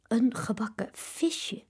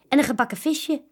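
First: Alarmed whisper. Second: Said in the usual way. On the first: A narrator's reading. Children alarmed at fried fish. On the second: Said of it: "cheerful offer to papa".

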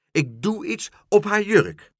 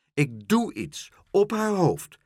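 First: High, loud triumphant cry; louder exclaiming. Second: High, slow gleeful announcement; exclaiming. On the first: Dolly the pigeon expanding her plan, loudly exclaiming. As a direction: top it with a bigger boast. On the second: Dolly the pigeon revealing her plan, exclaiming. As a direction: proclaim it word by word. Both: A narrator's reading. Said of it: "riep Dolly".

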